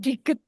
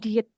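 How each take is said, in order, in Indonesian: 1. Kata itu ada bunyi g di tengah. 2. Kata itu tidak ada bunyi g di tengah. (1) "sang diget bukan diet" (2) "bukan diet"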